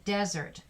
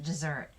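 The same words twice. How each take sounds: First: Desert said DEZ-ert, stress on the first syllable; desert as in the dry region, first syllable hit; noun desert. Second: Desert said de-ZERT, stress on the second syllable; teacher says desert as in to abandon, stress at the end; verb desert. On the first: Teacher shows the noun to her students, desert stressed on the first syllable. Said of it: "It can also be desert". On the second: Teacher shows the verb to her students, desert stressed on the second syllable. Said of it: "That one's pronounced desert". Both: Shown as a demonstration.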